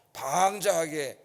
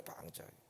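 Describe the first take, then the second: First: 방자하게 drawn out on its first syllable; stress on 방자하게. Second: 방자하게 dropped to a near-whisper; hushed echo. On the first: Preacher recounting Israel's behaviour, 방자하게 drawn out for emphasis. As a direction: stretch the start of 방자하게. Stresses word, then echoes it softly. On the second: Preacher echoing a word as an aside, 방자하게 very soft and hushed. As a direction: repeat 방자하게 under the breath. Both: Real, not acted.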